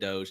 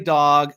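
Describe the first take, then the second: First: It has a long o and ends in a j sound. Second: It has a short vowel and ends in a hard g. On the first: The speaker calls it right. "I finally said it right" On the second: The speaker calls it wrong. "I didn't say dog"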